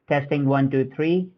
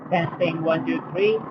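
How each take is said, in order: First: The voice is heard against a quiet background. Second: The voice is heard against a noisy background. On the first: "here's a mic test in a quiet environment" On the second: "here's a mic test in a noisy environment"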